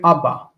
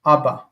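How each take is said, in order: The two takes are said the same way.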